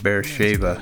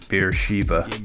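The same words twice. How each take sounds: First: The ending does not sound like Shiva. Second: The ending sounds like the name Shiva. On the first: The speaker calls it right. "it's pronounced Beersheba" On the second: The speaker calls it wrong. "not Beersheba. Beersheba is, you know, some kind of Indian god of beer"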